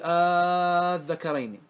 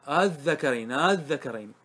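First: The opening hamza becomes a long drawn-out vowel. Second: The opening hamza is softened, between hamza and vowel. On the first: "يبدل مدا فتمد، تقول قل الذكرين، هذا المد" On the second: "التسهيل هو النطق بها بين الهمزة والألف"

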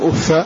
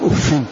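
First: The word ends with a short 'a' vowel. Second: The word ends with an 'in' sound. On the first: "بالفتح من غير تنوين" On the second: "بكسر مع التنوين"

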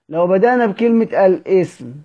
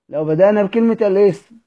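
The two takes are said the same way.

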